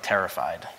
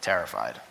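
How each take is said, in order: First: Said in the usual way. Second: Much lower and softer echo of terrified; quiet, low repeat. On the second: Shown as a demonstration. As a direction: let it sink low and quiet.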